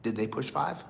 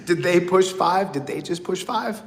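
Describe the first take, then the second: First: Hushed, worried inner question; anxious thought. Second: Amused replay of the worry; laughing disbelief. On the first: Retold or imitated. Listening on the collect call, a hushed worried thought. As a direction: wonder quietly if the line went dead. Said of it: "And you're thinking". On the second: Real, not acted. Laughing at the memory of the prison call. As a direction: repeat it through a laugh.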